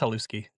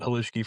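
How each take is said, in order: First: The middle consonant is a plain s sound. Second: The middle consonant is an sh sound. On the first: This is how the name is properly said. "I think it's haluski" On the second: This is how locals say the name. "we pronounce it halushki for some reason"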